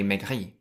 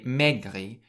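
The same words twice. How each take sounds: First: The stress is on the last syllable. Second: The stress is on the first syllable. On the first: The speaker calls it right. "you say maigri" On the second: The speaker calls it wrong. "you don't say maigri"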